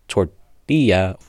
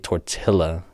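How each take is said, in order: First: The double L is said as a Y sound. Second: The double L is said as an L sound. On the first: The speaker calls it right. "the correct pronunciation is tortilla" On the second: The speaker calls it wrong. "you don't say tortilla"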